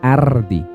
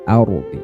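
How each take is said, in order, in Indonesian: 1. Bunyi r-nya tipis dan ringan. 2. Bunyi r-nya tebal dan berat. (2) "Jadi tebal bunyinya"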